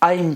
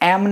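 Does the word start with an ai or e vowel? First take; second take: ai; e. First: The word starts with an ai vowel. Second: The word starts with a plain e vowel. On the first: The speaker calls it right. "આઈમ છે" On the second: The speaker calls it wrong. "એમ નથી"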